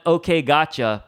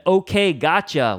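First: Said in the usual way. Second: Okay, gotcha said bright, with a rising lift; exclamation tone. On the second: Shown as a demonstration. Pastor showing a text with an exclamation mark, eager. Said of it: "with an exclamation mark".

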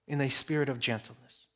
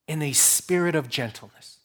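First: Much softer echo of the phrase; softer repeat. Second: Said in the usual way. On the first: Shown as a demonstration. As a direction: repeat it gently, almost to yourself.

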